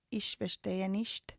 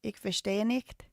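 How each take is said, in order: First: "Ich" as "ish" and "nicht" as "nisht"; soft sh ich. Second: "ich" as "ik" and "nicht" as "nikt"; hard-k ich. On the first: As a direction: try "Ich" and "nicht" with a sh sound, slow and softer. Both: Shown as a demonstration. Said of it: "Is it".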